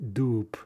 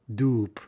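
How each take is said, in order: First: The word ends with a voiceless p sound. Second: The same.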